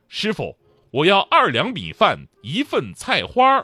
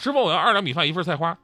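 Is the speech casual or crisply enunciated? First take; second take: enunciated; casual. First: It is spoken crisply with full, exaggerated tones. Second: It is spoken casually with relaxed articulation. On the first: A broadcasting student ordering food. "字正腔圆，调值必须要够" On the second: An ordinary student ordering food. "别的专业可能很随意啊"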